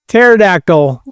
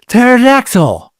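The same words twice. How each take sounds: First: It is said in his normal voice. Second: It is said in a Pink Ranger voice.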